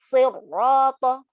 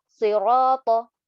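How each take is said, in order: First: Siroto slow with a doubled rr; added shaddah. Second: Siroto slow with a single r; correct reading. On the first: Teacher demonstrating the mistaken doubled r in siroto. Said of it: "kita bacanya". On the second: Teacher modelling the correct reading of siroto. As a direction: say siroto slowly, r not doubled. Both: Shown as a demonstration.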